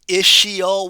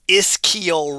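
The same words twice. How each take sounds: First: The middle sound is a soft sh. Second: The middle sound is a hard k. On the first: The speaker calls it wrong. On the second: The speaker calls it right.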